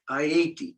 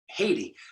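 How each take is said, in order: First: The name is said a different, non-English way. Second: The name is said the common English way. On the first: The speaker calls it right. "it is pronounced uh, Haiti, Haiti, more more like that" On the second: The speaker calls it wrong. "the mainstream way of pronouncing it"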